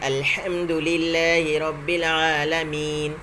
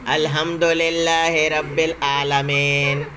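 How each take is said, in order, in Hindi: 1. ज़ेर की मात्राएँ शुद्ध, छोटी 'i' की आवाज़ें हैं। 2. ज़ेर की मात्राएँ 'e' की ओर झुकी होती हैं। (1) "बल्कि" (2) "ये नहीं पढ़ना है"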